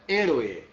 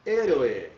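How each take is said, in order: First: Héroe in Spanish, stress on the first syllable; Spanish teacher repeating Héroe; Spanish pronunciation. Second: Héroe said in Spanish, slow; héroe pronounced the Spanish way, eh-ROH-eh; Spanish teacher demo of héroe; Spanish pronunciation. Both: Shown as a demonstration. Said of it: "eu estou pronunciando a palavra".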